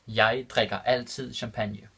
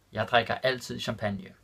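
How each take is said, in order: First: Jeg drikker altid champagne said slowly, word by word; careful slow repeat for students; slow and clear. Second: Said in the usual way. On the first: Shown as a demonstration. Teacher repeating the Danish example for learners, slow and clear. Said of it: "repeated slower for learners". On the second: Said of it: "repeated slower".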